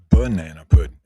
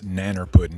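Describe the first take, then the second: First: The first word is said with three syllables. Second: The first word is clipped to two syllables. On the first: The speaker calls it wrong. "not banana pudding" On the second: The speaker calls it right. "the correct pronunciation is nanner pudding"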